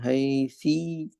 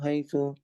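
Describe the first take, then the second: First: The word ends in an i vowel. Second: The word ends in a u vowel.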